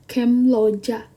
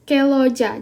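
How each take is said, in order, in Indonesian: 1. Bunyi sengau diucapkan sebelum l. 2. Bunyi sengau sebelum l dihilangkan. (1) "Lebih susah gitu" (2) "lebih mudah"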